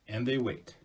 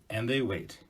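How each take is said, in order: Both takes have the same delivery.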